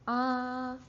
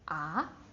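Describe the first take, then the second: First: The pitch stays high and level throughout. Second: The pitch climbs from middle to high. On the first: "your highest speaking voice, and it doesn't drop" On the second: "more like climbing... you go up to your highest pitch"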